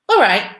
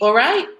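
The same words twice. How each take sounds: First: It is said with an answering, statement tune. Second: It is said with a questioning tune.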